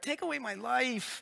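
It is said in a whiny, complaining voice.

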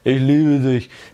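It is said in a slow, dull cartoon voice. The words will probably not be believed. The speaker calls it wrong. "so wie Samson in der Sesamstraße"

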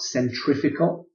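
The word is said in an American way. The speaker calls it wrong. "To all my American cousins, ... not centrifugal"

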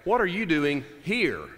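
The word 'here' is stressed.

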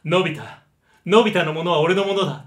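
It is said in a gentle, nice-guy voice.

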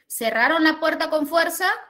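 The pitch rises at the end. It asks a yes-or-no question. "ya la convertí en ascendente"

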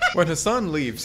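It is said in a put-on Scottish accent.

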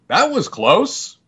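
It sounds tough, steady and unshaken. The character is never fazed by danger. The speaker calls it wrong. "because he always had to be buff, it would come out"

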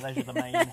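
The word is said in an Australian accent. "if you're in Australia"

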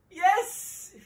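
It is said in a happy tone.

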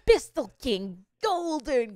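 It is said in an excited, energetic tone. The speaker calls it right. "Should have been more excited"

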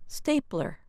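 The word ends with a strong r sound. "In American English, that sound is a strong er"

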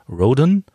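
The name is pronounced the English way. The character is American. "ist Perry Roden ein deutschstämmiger Amerikaner. Insofern könnte man sagen Roden"

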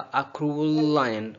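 'Cruel' runs into 'lion' with one L. The speaker calls it right. "आपने बोला ... बगैर वक्फे के"

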